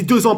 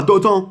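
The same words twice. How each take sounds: First: Said in the usual way. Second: "deux ans" said with a t in place of the z; "deux ans" with a wrong t liaison. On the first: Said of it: "pas deux ans". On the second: Shown as a demonstration. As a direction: mispronounce "deux ans" as deu-tan. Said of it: "J'ai dit deux ans, pas deux ans".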